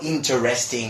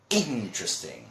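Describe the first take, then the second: First: Every syllable of the word is pronounced fully. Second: One unstressed syllable of the word is dropped. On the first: The speaker calls it wrong. "it's not interesting or something like that" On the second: The speaker calls it right. "That's the way we pronounce it"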